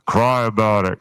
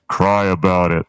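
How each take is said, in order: First: It is said in a put-on feminine voice. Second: It is said without a feminine-sounding voice. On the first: The speaker calls it right. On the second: The speaker calls it wrong.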